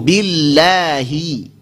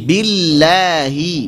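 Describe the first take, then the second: The two takes are said the same way.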